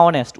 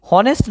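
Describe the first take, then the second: First: অনেস্ট with silent h, starting on the o; no h at the front of অনেস্ট; correct pronunciation. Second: হনেস্ট with the h sounded at the front; voiced-out h opening on হনেস্ট; wrong pronunciation. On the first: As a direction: say অনেস্ট as "onest", vowel first. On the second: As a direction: say হনেস্ট as "honest" with an audible h. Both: Shown as a demonstration. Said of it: "উচ্চারণটা কি".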